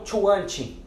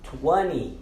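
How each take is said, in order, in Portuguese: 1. O som do T no meio é claramente pronunciado. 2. O som do T no meio é totalmente omitido. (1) "e não" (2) "esse T ele não é pronunciado, nós silenciamos ele"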